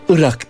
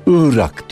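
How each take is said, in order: First: The first vowel is short. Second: The first vowel is long. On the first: "kısa ı'la söylüyor" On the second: "ı harfini uzatarak"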